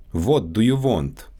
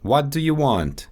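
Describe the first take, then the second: First: Russian accent, "What" and "want" with a rounded "wo" vowel; Russian accent, say "What do you want" as "vot do you vont". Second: Said in the usual way. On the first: Shown as a demonstration. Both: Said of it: "W and V sounds".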